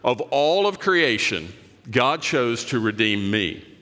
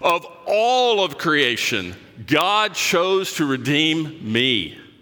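First: It is said calmly, without extra enthusiasm. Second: It is said with great enthusiasm and energy.

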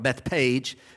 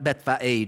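First: The middle consonant is a plain P sound. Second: The middle consonant is an F sound. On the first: "I've always called it Bethpage" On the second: "so kind of an F sound"

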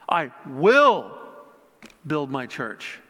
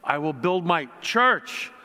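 First: The word 'will' is stressed. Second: The word 'church' is stressed. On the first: "putting an emphasis on each word" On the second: "putting an emphasis on each word"

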